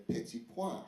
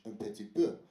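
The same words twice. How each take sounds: First: "pois" said as pwah in place of "peu"; soft "petit pois", ending in a wah sound; mistaken French. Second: Said in the usual way. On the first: Shown as a demonstration. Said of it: "I've been saying". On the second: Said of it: "which is in French".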